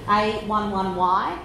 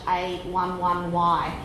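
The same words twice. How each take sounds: The two takes are said the same way.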